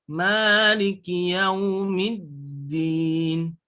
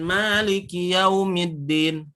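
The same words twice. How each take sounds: First: Slow, drawn-out chanted "Maliki yaumiddin"; sung, correct recitation. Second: "maliki yaumiddin" read plainly, not chanted; wrong version. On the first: Teacher showing the correct reading, slow chant. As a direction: chant it slowly, the right way. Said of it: "Nah, seperti itu". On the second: Teacher showing the wrong reading, plain and unchanted. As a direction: say "maliki yaumiddin" flat and quick, the way to avoid. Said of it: "Jadi, jangan". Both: Shown as a demonstration.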